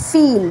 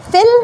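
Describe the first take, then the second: First: ফিল as "feel", long ee. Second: ফিল as "fill", short i. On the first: Teacher distinguishing the two words, long ee vowel. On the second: Teacher distinguishing the two words, short i vowel. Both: Shown as a demonstration. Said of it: "ডিস্টিংগুইশ করে বলতে হবে".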